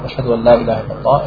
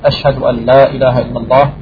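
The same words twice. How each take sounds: First: The phrase is said quietly, under the breath. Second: The phrase is said loudly, projected outward. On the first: It is said privately to oneself first. "hat er für sich leise gesagt" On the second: It is announced publicly. "hat er laut gesagt"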